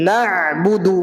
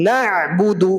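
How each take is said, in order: No difference in how they are said.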